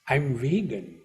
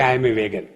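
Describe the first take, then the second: First: It is said with an affected, stylish air. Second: It is said plainly, without affectation.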